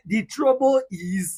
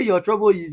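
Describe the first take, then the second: First: "the trouble is" high and very slow; corrective emphasis on THE. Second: Said in the usual way. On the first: Shown as a demonstration. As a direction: spell out "the trouble is" slowly as the correction. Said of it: "You say the trouble is". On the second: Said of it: "you will not say".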